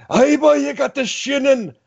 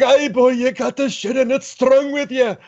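First: High, put-on Scottish accent; Scottish groundskeeper impression. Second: Put-on high Scottish accent, slowing at the end; Scottish groundskeeper impression. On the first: Fan imitates the Scottish groundskeeper in a high Scottish accent. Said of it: "crazy Scottish groundskeeper guy". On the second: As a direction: growl it like the Simpsons groundskeeper, Scottish. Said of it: "I was like".

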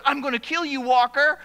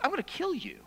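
First: A lightly voiced, louder retold threat; bully's threat. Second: Whispered menace; menacing threat. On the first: Bully lands in front of Walker, mildly raised threat. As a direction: throw the threat at him, a little louder. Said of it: "He goes". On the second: Retold or imitated. Bully threatens the boy across the schoolyard, whispered. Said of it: "he goes".

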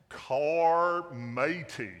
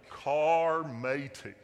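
First: Slow, louder pirate drawl on "Carmatey", the r rolled out long; drawn-out pirate name. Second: Slow, louder pirate drawl on "Carmatey", the r rolled out long; drawn-out pirate name again. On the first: Pastor announcing the parking app to the church in a pirate accent. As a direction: stretch out "Carmatey" like a pirate calling his mate. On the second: Pastor repeating the app name to the congregation in a pirate accent. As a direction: stretch out "Carmatey" once more like a pirate. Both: Pretend. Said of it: "in a pirate accent".

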